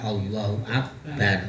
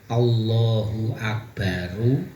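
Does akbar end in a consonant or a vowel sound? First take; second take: consonant; vowel. First: The word ends on a bare r sound. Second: The final r is followed by a u vowel. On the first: The speaker calls it right. "Roknya itu dibaca su, sukun" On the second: The speaker calls it wrong. "bukan Allahu akbaru"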